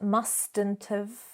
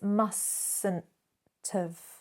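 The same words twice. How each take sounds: First: The T in mustn't is clearly pronounced. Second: The T in mustn't is silent. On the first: The speaker calls it wrong. "It's not" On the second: The speaker calls it right. "remember that silent T"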